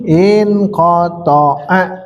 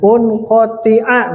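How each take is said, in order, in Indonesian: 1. Kata ini diawali dengan vokal 'i'. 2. Kata ini diawali dengan vokal 'u'. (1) "Karena memang harus begini" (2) "misal itu salah"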